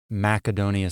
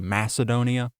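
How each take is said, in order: First: The word begins with a hard K sound. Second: The word begins with a soft S sound. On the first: This is how it was said in ancient times. "the hard Macedonia sound" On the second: This is the usual modern English way. "that soft C"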